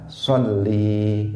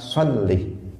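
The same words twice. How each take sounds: First: The final vowel is drawn out long. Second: The final vowel is short. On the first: The speaker calls it wrong. "Yang salah sholli, itu salah, yaitu dengan menambah ya di belakang lam" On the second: The speaker calls it right. "Jadi yang benar apa?"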